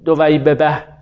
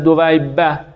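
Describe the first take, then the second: First: A vowel separates the two b sounds. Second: The two b sounds merge into one doubled b. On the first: The speaker calls it wrong. "این ببه برای عرب سخته" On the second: The speaker calls it right. "ولی برای عرب خیلی شیرین تره"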